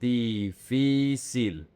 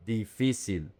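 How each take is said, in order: First: Difícil very slowly, each i held as the same "ee"; slow syllable-by-syllable model of Difícil, three identical long i's; drawn-out equal vowels. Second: Said in the usual way. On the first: Shown as a demonstration. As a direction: stretch every syllable of Difícil, dee-fee-seel. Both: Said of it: "is pronounced exactly the same".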